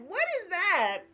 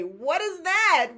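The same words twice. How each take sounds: First: Even higher, squeezed disbelief; high incredulous squeak; exasperated repeat. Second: High, drawn-out what is that; slow exasperated question; mock outrage. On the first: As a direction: push the pitch up in mock horror. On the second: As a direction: stretch it out in disbelief. Mock outrage at dead camera. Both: Real, not acted.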